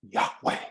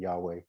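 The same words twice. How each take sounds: First: It is said with a harsh guttural throat sound. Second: It is said smoothly with no throat sound. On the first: This is how people in the Middle East say it. "if you hear them say it, it's like" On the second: This is how Westerners say it. "we say it, you know, in a Western way"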